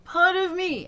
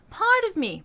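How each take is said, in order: First: The same words spoken high but pushed, the take to avoid; wrong way. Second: High speaking voice. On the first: Coach showing the wrong pushed version. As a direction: push it the wrong way. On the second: Coach showing the right high spoken placement. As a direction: speak it high and bright in head register. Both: Shown as a demonstration. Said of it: "Remember, it's not this".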